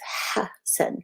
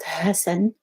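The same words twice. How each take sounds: First: The h is squeezed tight in the throat. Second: The h is a plain, open breath sound. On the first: The speaker calls it right. "see how the passage got smaller with the ha in the back of your mouth" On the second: The speaker calls it wrong. "so it's not Hassan"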